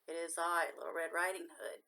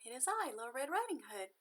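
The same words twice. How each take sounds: First: A lightly voiced wolf pretending to be the girl; wolf faking softness. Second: Put-on a bit higher, light girl's voice; a lightly voiced child announcing herself; little girl. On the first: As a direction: lower wolf voice, louder, trying to sound sweet. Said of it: "trying to make his rough voice sound soft". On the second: Girl answers at the door. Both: A narrator's reading.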